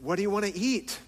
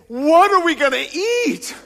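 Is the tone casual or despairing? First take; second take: casual; despairing. First: It sounds like a casual, relaxed question. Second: It sounds like an anxious, despairing question.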